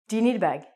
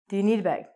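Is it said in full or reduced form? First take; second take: reduced; reduced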